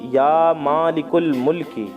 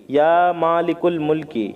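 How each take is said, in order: The two takes are said the same way.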